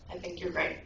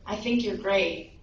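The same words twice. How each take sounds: First: Softer, lower answer; lightly imitated echo, low and soft; echo reply. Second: Slow, restrained mock call; dad's mild, drawn-out call; retold yell. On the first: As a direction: send it back as a faint echo. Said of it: "the voice again responds". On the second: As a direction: call it out slowly, without shouting. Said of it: "the dad yells out again".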